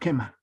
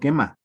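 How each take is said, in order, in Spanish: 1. La palabra termina con un soplo de aire audible. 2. La palabra termina de forma simple, sin soplo al final. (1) "al final hay un sonido ... es un sonido aspirado" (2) "no me está diciendo quema"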